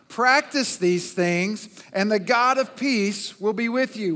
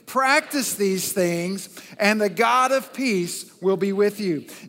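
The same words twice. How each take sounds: First: It is read plainly, without special force. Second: It is read forcefully, with strong conviction.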